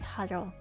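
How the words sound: The middle consonant is a slight R sound.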